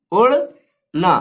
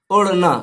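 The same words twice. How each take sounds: First: "उड़ना" drawn out slowly, syllable by syllable; slow spelled-out demo. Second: Said in the usual way. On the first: Shown as a demonstration. Teacher slowly sounding out "उड़ना" for students. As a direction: stretch "उड़ना" slowly so each sound is heard. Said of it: "जिस तरह हमने नून को इसमें मिलाए हैं". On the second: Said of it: "तो इस तरह लिखना होगा".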